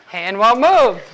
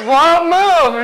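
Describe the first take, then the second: First: Said in the usual way. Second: Won't move higher and louder, pressing; insistent repeat. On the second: Retold or imitated. Client repeating Won't move to her partner, higher and louder. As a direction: push the words Won't move harder. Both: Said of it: "So she's like".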